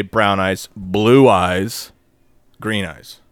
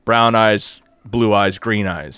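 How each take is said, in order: First: Arguing the order should have stayed the same; order questioned. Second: "Brown eyes, blue eyes, green eyes" listed evenly, falling on "green eyes"; quoting the original prophecy order; original order quoted. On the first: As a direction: list them as a puzzled question. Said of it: "why did she rearrange the thing?". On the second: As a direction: recite the three as a plain falling list. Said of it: "She says". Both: Retold or imitated.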